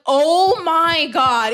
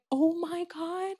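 First: Drawn-out, louder "oh my God"; retold shock. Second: Softer, slow, higher-pitched realisation; retold hushed shock. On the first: Telling friend about googling it as a teenager, retold shock. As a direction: stretch it out in dawning realisation. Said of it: "I had to Google and I was like". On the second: Girl explained it to me in group chat, retold hushed shock. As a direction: let it sink in quietly. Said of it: "explained it to me and I'm like".

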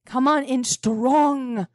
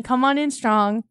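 First: Slow, with "strong" stretched long; drawn-out STRONG. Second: Said in the usual way. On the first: Shown as a demonstration. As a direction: lean hard into "strong".

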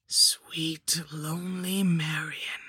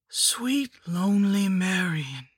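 First: Slow rasping whispered crone voice; wheezing hag whisper. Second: High whispered hag voice, drawn out; witch voice. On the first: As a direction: whisper it like sand falling. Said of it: "it wheezed in a voice like sand falling". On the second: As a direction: croon it like a rotting crone. The hag repeats her greeting. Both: Acted.

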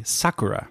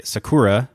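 First: Sakura as SA-ku-ra, first syllable stressed; actual Japanese pronunciation. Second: Sakura as sa-KU-ra, middle syllable stressed; English-speaker pronunciation. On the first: Podcaster correcting English reading, sakura stressed on SA. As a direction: hit the SA in sakura, then let it drop. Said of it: "but it's actually sakura". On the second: Podcaster showing how English speakers say it, sakura stressed on KU. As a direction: lean on the KU in sakura, English style. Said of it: "look at that as English speakers". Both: Shown as a demonstration.

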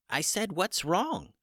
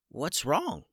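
First: Much higher, slow little chicken voice; a slow, high chicken voice saying "What's wrong?" again; chicken voice, repeated. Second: A lightly higher little chicken voice; small chicken voice. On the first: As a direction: repeat the question patiently, high and slow like a small bird. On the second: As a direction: ask it like a small puzzled bird. Chicken first speaks. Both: A narrator's reading.

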